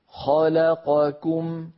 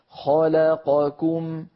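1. جميع الحركات متساوية في الطول. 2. جميع الحركات متساوية في الطول.

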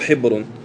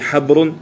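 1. الصائت الأول هو صوت 'i'. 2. الصائت الأول هو صوت 'a'. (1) "أو الكسر" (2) "بالفتح"

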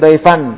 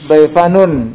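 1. Kata ini berakhir dengan bunyi sengau tanpa vokal di akhir. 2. Kata ini berakhir dengan suku kata 'un' tambahan. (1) "kalau diwaqafkan emang dia sukun" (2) "kalau disambung daifanun berharokat"

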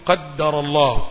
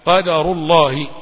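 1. صوت d مضعّف ومطوّل. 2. صوت d قصير ومفرد. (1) "بعض الإخوة يشدد الدال" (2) "لا،"

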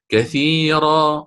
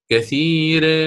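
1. الراء مفخمة مع فتحة. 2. الحركة بعد الراء تميل نحو 'ee'. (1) "أقرأ الإمام قالون كثيرا" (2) "سأقللها، اعذروني خطأ هو"

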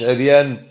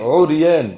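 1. المقطع الأول فيه حركة غير الضمة. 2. المقطع الأول فيه ضمة (u). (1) "مش عريان" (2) "هذا هو النطق الصحيح، عو بضم العين"

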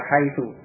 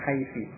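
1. Kata ini diakhiri dengan vokal u. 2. Kata ini diakhiri dengan vokal i. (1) "dibaca haitu tetap dengan dhommah" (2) "menjadikan mabni dengan kasrah"

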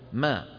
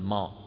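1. الميم تُنطق مرققة. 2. الميم تُنطق مفخمة. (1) "نراعي ترقيق الميم" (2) "ما يصير أن نقول ما"

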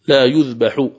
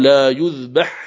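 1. ينتهي الفعل بحركة 'u' في آخره. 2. ينتهي الفعل بلا حركة في آخره. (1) "فتنطقها بالرفع" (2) "فإن الفعل هنا يقرأ بالجزم"

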